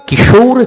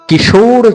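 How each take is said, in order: No difference in how they are said.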